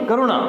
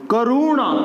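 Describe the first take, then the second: First: करुणा with a quick middle vowel, 'ka-ru-na'; short u. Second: करुणा with a stretched middle vowel, 'ka-roo-na'; long u mistake. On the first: Teacher correcting students, short middle vowel. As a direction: keep the 'ru' in करुणा short. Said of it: "ये छोटा ऊ है". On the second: Teacher showing the wrong form, lengthened vowel. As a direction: drag out the 'ru' in करुणा. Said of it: "करुणा नहीं". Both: Shown as a demonstration.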